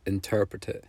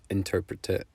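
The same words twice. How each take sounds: The two takes are said the same way.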